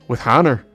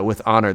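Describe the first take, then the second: First: Honor starts with an added h sound. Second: Honor starts with a vowel, no h sound. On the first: "They'd say with with honor" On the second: "they wouldn't say uh, with honor"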